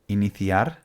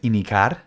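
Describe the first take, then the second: First: The middle has a 'th' sound. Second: The middle has no 'th' sound. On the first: The speaker calls it right. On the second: The speaker calls it wrong.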